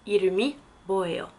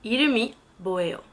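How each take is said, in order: First: 이름이 뭐예요 said quickly, i-reu-mi mwo-ye-yo ending in a fall; falling model question. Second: 이름이 뭐예요 said quickly, i-reu-mi mwo-ye-yo slightly raised; quick model of 이름이 뭐예요; model question. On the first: Teacher repeating 이름이 뭐예요 with a falling end for learners. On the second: Teacher modelling 이름이 뭐예요 again for French learners. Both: Shown as a demonstration. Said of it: "Quel est ton prénom?".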